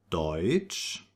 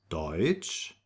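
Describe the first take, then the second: No difference in how they are said.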